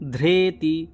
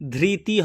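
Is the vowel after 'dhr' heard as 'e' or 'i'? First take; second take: e; i. First: The first syllable is said as 'dhre'. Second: The first syllable is said as 'dhri'. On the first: The speaker calls it right. "রি থাকলে যজুর্বেদে রে উচ্চারণ হয়" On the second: The speaker calls it wrong. "কখনোই ধৃতি হবে না"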